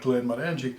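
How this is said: The name is said as one unbroken word. This is how it is said in Glasgow. "it's written as one word, ... that would certainly be how they pronounce it in Glasgow"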